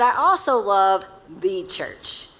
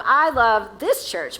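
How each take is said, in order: First: "the" said as a full, slow "thee"; single out "the" before "church"; stress on the. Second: "this" leaned on, stretched slowly; stress on this. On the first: Preacher widening to the universal church, stress on "the". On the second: Preacher to congregation about their own church, stress on "this". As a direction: land the weight on "this". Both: Real, not acted.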